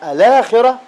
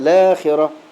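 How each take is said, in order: First: The word starts with a vowel before the L. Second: The word starts directly with the L sound. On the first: The word is read following its original form. "نبدأ بهمز الوصل الآخرة على الأصل" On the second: The word is read with the hamza's vowel moved onto the L. "فلا تبدأ بهمز الوصل، يعني تقول كده لا خيرة"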